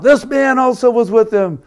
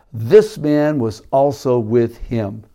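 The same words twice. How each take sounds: First: Sudden high, loud accusing outburst; a servant girl blurting an accusation at Peter. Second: The words drawn out slowly and evenly; reading the servant girl's words aloud from the verse; slow, measured reading. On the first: Retold or imitated. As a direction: blurt it out like you just recognised him. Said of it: "And then she blurts out". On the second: A narrator's reading. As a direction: read it slowly, taking your time. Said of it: "she blurts out".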